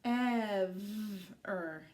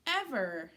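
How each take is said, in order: First: "Ever" stretched sound by sound, long V. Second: Said in the usual way. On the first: Shown as a demonstration. Teacher showing children the new word, slowly sounded out. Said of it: "tell me what word I made". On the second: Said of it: "Good reading".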